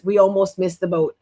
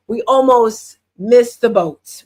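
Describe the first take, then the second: First: Said in the usual way. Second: Slow, emphatic first telling. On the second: Real, not acted. Mom stressing how close they came, slow and emphatic. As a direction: lean on almost, said slowly. Retelling a near miss.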